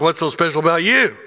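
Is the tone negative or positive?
negative. It is said in a negative, dismissive tone.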